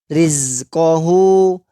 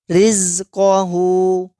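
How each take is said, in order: Both takes have the same delivery.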